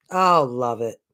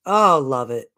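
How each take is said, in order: Both takes have the same delivery.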